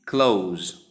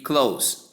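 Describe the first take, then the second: First: "close" ending in a voiced z; verb pronunciation. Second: "close" ending in a hissed s; final S sound. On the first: Teacher giving the verb meaning to shut, final Z sound. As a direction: say "close" like "cloze". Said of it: "and s sound to give". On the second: Teacher giving the adjective close, final S sound. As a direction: say "close" to rhyme with "dose". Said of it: "s sound to give close". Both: Shown as a demonstration.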